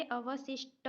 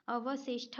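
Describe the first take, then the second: First: अवशिष्ट with unaspirated ending, "avasishta"; correct pronunciation. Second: अवशिष्ट with aspirated ending, "avasishtha"; wrong pronunciation. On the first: Teacher giving the correct spelling, अवशिष्ट with unaspirated "ṭa". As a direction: end अवशिष्ट on a hard "ṭa" without breath. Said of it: "होता है". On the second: Teacher rejecting a misspelling, अवशिष्ट with aspirated "ṭha". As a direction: end अवशिष्ट on a breathed "ṭha". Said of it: "ट ठ का अदला बदली है". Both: Shown as a demonstration.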